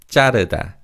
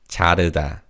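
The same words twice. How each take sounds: First: The first consonant is tense and stiff. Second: The first consonant is plain and lax. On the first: The speaker calls it wrong. "Koreans often pronounce this word as 자르다. So they say 지읒 as a 쌍지읒" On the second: The speaker calls it right. "the correct way of pronouncing this word is 자르다"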